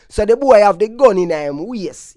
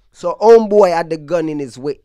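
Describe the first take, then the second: First: Said in the usual way. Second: Tells it in a mild New York Yankee accent; a hint of New York accent on gun in his waist. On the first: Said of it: "I gotta speak Jamaican so y'all understand me". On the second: Shown as a demonstration. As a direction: say it like a Brooklyn native, not Jamaican. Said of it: "I'm still kinda yanking".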